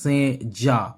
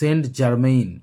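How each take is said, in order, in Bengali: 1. নামটি ফরাসি ঢঙে উচ্চারিত হয়, 'se zhan'। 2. নামটি ইংরেজি ঢঙে উচ্চারিত হয়, 'saint jermain'। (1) "ফরাসিতে উচ্চারণটা এরকমই হবে" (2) "কিন্তু উচ্চারণটা হবে সেন্ট জার্মেইন"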